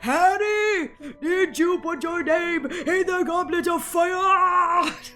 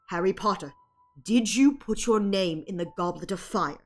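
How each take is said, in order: First: It is shouted in a frantic, agitated way. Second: It is said calmly with stern concern.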